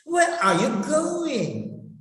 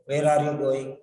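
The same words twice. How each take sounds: First: "Where are you going?" high, with "going" swelling then falling; expressive intonation. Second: "Where are you going?" low, all on one note; low monotone on "Where are you going"; flat tone. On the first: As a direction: sweep the pitch up and down on "going". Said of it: "you have to express your feelings". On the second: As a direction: say "Where are you going" without any rise or fall. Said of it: "flat tone". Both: Shown as a demonstration.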